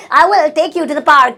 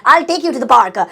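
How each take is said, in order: First: "I will take you to the park" stretched out very slowly; very slow, each word set apart; slow teaching repeat. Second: Said in the usual way. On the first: Shown as a demonstration. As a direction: dictate it slowly to the class. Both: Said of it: "slow repeat for learners".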